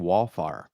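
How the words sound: The first syllable sounds flattened, like 'wall'. This is the speaker's old regional way of saying it. "I was saying wallfire ... I can hear that shit coming out wrong"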